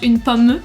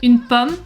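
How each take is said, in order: First: The final e is pronounced. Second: The final e is silent. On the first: The speaker calls it wrong. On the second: The speaker calls it right.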